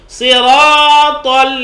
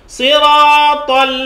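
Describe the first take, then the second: Both takes have the same delivery.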